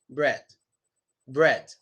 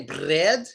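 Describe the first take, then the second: First: "bread" with a soft, light R; no lip protrusion on the R of "bread"; softer R. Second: "bread" with a rough, exaggerated R after the B; wrong R. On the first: Teacher modelling mid-word R, softly made. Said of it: "It's a much softer R sound". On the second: Teacher showing what we don't say, exaggerated R. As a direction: overwork the R in "bread". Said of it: "We don't say bread". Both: Shown as a demonstration.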